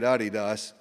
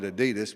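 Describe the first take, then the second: First: It uses the brand's own pronunciation. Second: It uses a Southern US pronunciation. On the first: This is how the company itself says it. The speaker calls it right. "they say it Adidas" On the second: This is how people in the region usually say it. The speaker calls it wrong. "I always called it Adidas, but I'm from Northeast Arkansas"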